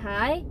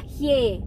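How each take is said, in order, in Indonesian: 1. Suku katanya diucapkan seperti 'hai'. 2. Suku katanya diucapkan seperti 'hye'. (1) "bukan Hai" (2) "dibacanya itu adalah Hye"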